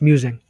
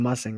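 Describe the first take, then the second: First: The first vowel sounds like the vowel in 'use'. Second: The first vowel sounds like the vowel in 'us'. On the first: The speaker calls it right. "It's musing. I was wrong" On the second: The speaker calls it wrong. "That's got to be mussing, right?"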